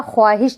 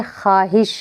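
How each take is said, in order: First: ख्वाहिश with the w sounded, khwaahish; as written. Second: ख्वाहिश said khaahish, without w; silent waw. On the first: Teacher showing the spelling, ख्वाहिश as khwaahish. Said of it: "वाव लिखा जाएगा". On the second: Teacher showing how it is read, ख्वाहिश as khaahish. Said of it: "हम जो पढ़ेंगे वो". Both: Shown as a demonstration.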